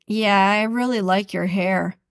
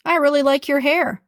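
First: Mildly sarcastic compliment. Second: Bright, genuine praise; mean it kindly; a lightly raised, sincere compliment. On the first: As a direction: lean on really with scorn. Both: Shown as a demonstration. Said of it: "some are hurtful".

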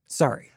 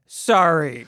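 First: Grudging. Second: Forced apology. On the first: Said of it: "Like you mean it". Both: Acted.

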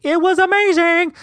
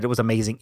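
First: Very high, held squeal on "it was amazing"; exaggerated high gush. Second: Said in the usual way. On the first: Vlogger sells the breakfast to viewers, exaggerated high gush. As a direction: gush it in a silly, sky-high voice.

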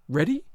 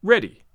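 First: READY rising at the end, as a question; "Ready?" turned up in query. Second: READY louder with a falling end; "Ready" as a loud, settled statement; firm repeat. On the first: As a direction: ask "Ready?" with a lifted ending. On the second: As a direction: answer "Ready" firmly, landing downward. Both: A narrator's reading. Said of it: "I repeated".

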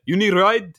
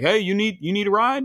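First: Light imitation of a Saudi neighbour's Arabic accent, a bit louder; offering a ride in a lightly put-on Arabic accent; Hassan's accent. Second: Said in the usual way. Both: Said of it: "I guess I could do his accent".

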